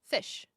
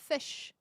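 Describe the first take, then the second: Both takes have the same delivery.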